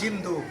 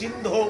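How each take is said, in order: First: The final vowel sounds like u. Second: The final vowel sounds like o. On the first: The speaker calls it wrong. "আমরা উচ্চারণ করি" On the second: The speaker calls it right. "ও এর মতো উচ্চারণ হবে"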